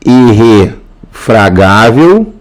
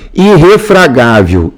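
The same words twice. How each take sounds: First: Irrefragável slowed and split, irre, fragável; teacher stretching "irrefragável" in parts; syllable by syllable. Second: Said in the usual way. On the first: Shown as a demonstration. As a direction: sound out "irrefragável" slowly with a pause inside. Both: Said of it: "Então, aqui".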